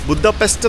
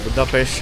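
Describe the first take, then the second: First: The word ends with an 'st' sound. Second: The word ends with an 'sh' sound. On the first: This is how outsiders usually say it. "ബുദാപെസ്റ്റ് എന്നാണ് നമ്മൾ പറയുന്നത്" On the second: This is how the locals say it. "ഇവർ പ്രൊനൗൺസ് ചെയ്യുന്നത് ബുദാ ബുദാപേഷെന്നോ"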